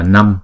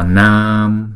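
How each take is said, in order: First: The vowel is short. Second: The vowel is held long, two beats. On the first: The speaker calls it wrong. "chúng ta không đọc là Năm" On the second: The speaker calls it right. "mà chúng ta đọc là Nam"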